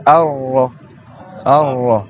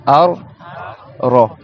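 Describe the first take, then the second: First: Ar-Ra joined on a held R; linked double R. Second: Ar-Ra split as Ar, pause, Ra; two separate Rs. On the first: Teacher showing students Ar-Ra with both Rs linked. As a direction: run Ar-Ra together, lengthening the R. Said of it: "si tu fais les deux liés". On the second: Teacher showing students Ar-Ra with both Rs apart. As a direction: break Ar-Ra into two syllables. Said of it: "t'aies les deux Ra". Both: Shown as a demonstration.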